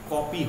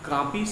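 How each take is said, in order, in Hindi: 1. पहला स्वर गोल होकर बोला जाने वाला 'aw' है। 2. पहला स्वर साधारण खुला 'aa' है। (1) "जो कि सही उच्चारण है" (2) "कापी से कॉपी हो गया"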